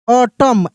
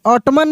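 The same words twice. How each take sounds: First: ऑटम said "autumn", silent n; correct reading. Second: ऑटमन with the n sounded at the end; wrong reading. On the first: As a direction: say ऑटम without the final n. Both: Shown as a demonstration. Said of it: "ऑटमन नहीं".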